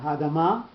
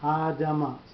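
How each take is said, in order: First: Only one syllable carries the stress. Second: Two syllables share the stress equally. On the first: The speaker calls it wrong. "So it's not hadama" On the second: The speaker calls it right. "You're going to give some some some value to the aleph and some value to the mem"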